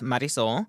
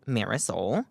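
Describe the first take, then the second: First: The name is said with a Spanish accent. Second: The name is said with an American English accent. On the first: This is the name's real pronunciation. "I'm sure it's pronounced Marisol" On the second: This is how the character would say it.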